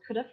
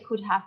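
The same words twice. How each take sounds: First: 'Have' is reduced, with the h dropped. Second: 'Have' is said fully, with its h sound. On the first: The speaker calls it right. "it becomes um, a shorter form" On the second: The speaker calls it wrong. "we don't say"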